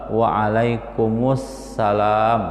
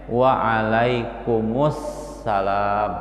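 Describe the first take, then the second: The two takes are said the same way.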